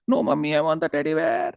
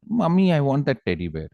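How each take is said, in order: First: High-pitched tantrum whine; whining child. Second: Put-on higher, childlike request; little girl asking. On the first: Acted. Small girl insists to her irritated mother, high mock wail. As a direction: imitate a small girl wailing in protest. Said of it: "she started crying". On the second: Small girl asks her mother for a toy, higher childlike voice. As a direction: plead lightly like a small child. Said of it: "So this girl said".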